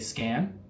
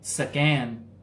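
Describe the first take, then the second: First: It is said in a plain American accent. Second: It is said imitating the local English accent. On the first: Local listeners may not understand it. The speaker calls it wrong. "you just say scan" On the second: Local listeners understand it right away. The speaker calls it right. "that's how they say English"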